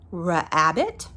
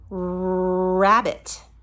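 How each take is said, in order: First: It begins with a separate 'ruh' sound. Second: It begins with a smooth, blended r sound. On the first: The speaker calls it wrong. "It does not say ruh" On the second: The speaker calls it right. "No, we say rabbit"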